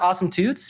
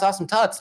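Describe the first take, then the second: First: The vowel in the last word is long, like 'boot'. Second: The vowel in the last word is short, like 'but'. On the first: The speaker calls it wrong. "I actually ca- call it Awesome Toots" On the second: The speaker calls it right. "actually it is pronounced Awesome Tuts"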